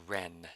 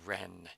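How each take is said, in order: No difference in how they are said.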